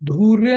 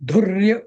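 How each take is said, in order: First: The first vowel is held long. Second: The first vowel is kept short. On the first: The speaker calls it wrong. "धूर्य नाही" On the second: The speaker calls it right. "धुर्य असं म्हणायचं"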